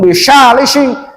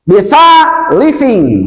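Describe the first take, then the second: First: The consonants are 's' sounds. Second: The consonants are 'th' sounds. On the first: The speaker calls it wrong. "Jangan bisalising" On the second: The speaker calls it right. "Lihat bentuk tulisannya"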